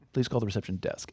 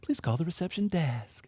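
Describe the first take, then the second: First: The voice goes down, flat and unhappy. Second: The voice lilts upward, as Claudette said it.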